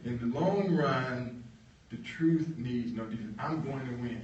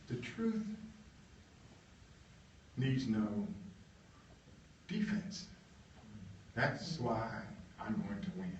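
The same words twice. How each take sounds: First: Slow and even, leaning on truth; slow, deliberate quote. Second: Soft, broken up by long pauses; quoted motto, halting. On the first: Marshall's motto restated slowly and firmly. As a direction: spell it out steadily with weight on truth. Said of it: "He said". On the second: Marshall's motto, murmured with long gaps. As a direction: let each word sit alone, hushed. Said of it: "he said". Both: Retold or imitated.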